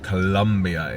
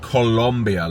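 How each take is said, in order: First: The second vowel is an 'uh' sound. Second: The second vowel is an 'o' sound. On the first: It names the restaurant. "you don't say uh for a U" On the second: It names the country. "it's not spelt Colombia like the country"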